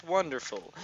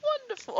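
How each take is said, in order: First: Said in the usual way. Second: Squeaky high "Wonderful". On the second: Pretend. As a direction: push it way up high. Repeating word, climbing.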